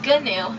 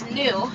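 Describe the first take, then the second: First: The word starts with a hard G sound. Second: The word starts with an N sound. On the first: The speaker calls it wrong. "commonly mispronounced" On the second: The speaker calls it right. "the G is actually silent"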